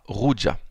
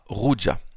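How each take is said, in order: First: The R is a French throaty R. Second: The same.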